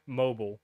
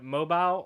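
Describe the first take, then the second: First: Mobile as "MO-bull"; wrong pronunciation. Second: Mobile as "MO-bile", long I; wrong pronunciation. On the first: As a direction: say mobile with a swallowed "bəl" ending. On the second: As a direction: end mobile like the word "bile". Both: Shown as a demonstration. Showing how people say it wrong, mispronounced. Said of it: "people say mobile wrong all the time".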